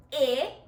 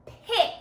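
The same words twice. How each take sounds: First: "P-I-K" as three separate sounds, long pauses between; stretched out. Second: Said in the usual way. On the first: Shown as a demonstration. Teacher leading pupils, "P-I-K" sounded out slowly. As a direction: say "P-I-K" as puh, short i, k, not letter names. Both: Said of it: "Stretch this word out with me".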